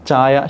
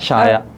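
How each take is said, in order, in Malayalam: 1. ഈ വാക്ക് ch ശബ്ദത്തിലാണ് തുടങ്ങുന്നത്. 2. ഈ വാക്ക് sh ശബ്ദത്തിലാണ് തുടങ്ങുന്നത്. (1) "ചാ" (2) "ഷ"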